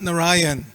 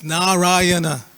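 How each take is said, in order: First: The word ends on the n sound. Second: The word ends with a vowel after n. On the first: The speaker calls it wrong. "It's not Narayan" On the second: The speaker calls it right. "It's Narayana"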